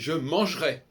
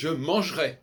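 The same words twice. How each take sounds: First: The middle e is dropped, shortening the word. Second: The same.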